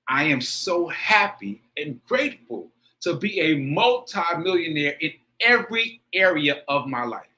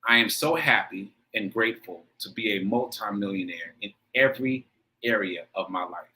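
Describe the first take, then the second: First: It is said with intense, heartfelt feeling. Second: It is said plainly, just reading the words.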